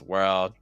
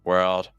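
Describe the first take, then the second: No difference in how they are said.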